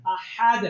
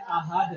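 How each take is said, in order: First: Firm "अहद" with strong friction on the h; correct throaty ha. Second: "अहद" with a plain open h; common wrong h. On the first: Teacher gives students the right version, throaty ha. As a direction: squeeze the h of "अहद" in mid-throat. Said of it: "अहद नहीं कहना". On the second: Teacher mimics how we often say it, open h. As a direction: let "अहद" pass with no friction in the throat. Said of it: "अक्सर हम क्या कह देते हैं". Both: Shown as a demonstration.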